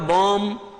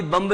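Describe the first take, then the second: First: "बॉम्ब" said as "bom", ending on m; silent b. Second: "बम्ब" with the closing b pronounced; sounded final b. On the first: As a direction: drop the final b of "बॉम्ब", holding the m. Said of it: "बी का उच्चारण नहीं होता". ("बॉम्ब" को "बॉम" जैसा, ब के बिना) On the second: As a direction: say "बम्ब" as spelt, b voiced at the end. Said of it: "बम्ब नहीं बोलते आप". ("बम्ब" में आख़िरी ब साफ़ बोलते हुए) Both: Shown as a demonstration.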